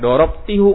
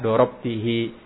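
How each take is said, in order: First: The final syllable ends with a 'u' vowel. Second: The final syllable ends with an 'i' vowel. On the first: The speaker calls it wrong. "jangan sampai antum bacanya dorob tihu kan domennya hu" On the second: The speaker calls it right. "Ternyata yang benar sesuai kaidah dorob tihi"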